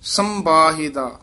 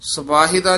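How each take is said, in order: First: The first syllable is nasalized, followed by a b. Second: The first syllable is plain, followed by a v. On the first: The speaker calls it right. "ਸੱਸੇ ਉੱਤੇ ਟਿੱਪੀ ਹੈ, ਥੋੜਾ ਜਿਹਾ ਕੱਸ ਕੇ ਉਚਾਰਨ ਕਰਨਾ ਹੈ" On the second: The speaker calls it wrong. "ਸਵਾਹਿਦਾ ਨਹੀਂ ਕਹਿਣਾ"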